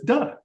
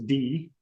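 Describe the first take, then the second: First: The letter is said as a short sound, duh. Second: The letter is said as its name, dee. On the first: This is how the letter is named in Bulgarian. "D says duh" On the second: This is how the letter is named in English. "D never says D"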